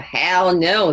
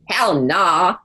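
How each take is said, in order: First: The last word ends with an 'oh' vowel. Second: The last word ends with an 'ah' vowel.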